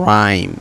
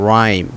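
Both takes have the same delivery.

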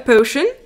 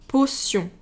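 First: It is pronounced the English way. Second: It is pronounced the French way.

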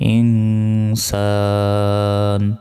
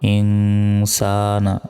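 First: The word ends on a consonant. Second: The word ends with a short vowel. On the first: The reciter stops at this word. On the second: The reciter continues without stopping.

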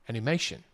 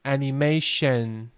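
First: The final syllable is short and not dragged. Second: The final syllable is dragged out and lengthened. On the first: The speaker calls it right. "不要 shen" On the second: The speaker calls it wrong. "很多人喜欢拖一个音"

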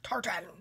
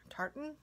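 First: The word is said in a harsh way. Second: The word is said in a softer way. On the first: "I feel like I'm saying it harsh or something" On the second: "Maybe I'm supposed to say it like that"

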